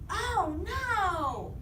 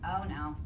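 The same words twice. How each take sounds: First: The voice is loud, emphatic and excited. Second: The voice stays flat and plain, then falls. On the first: The speaker is strongly exclaiming. "exclamate. Your voice needs to be super excited" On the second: The speaker is simply stating something.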